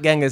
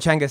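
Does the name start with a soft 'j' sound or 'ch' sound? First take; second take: j sound; ch sound. First: The name starts with a soft 'j' sound. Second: The name starts with a 'ch' sound. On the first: This is the usual outside way of saying it. The speaker calls it wrong. "not Genghis" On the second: This is how the locals say it. The speaker calls it right. "they call him Chenghis"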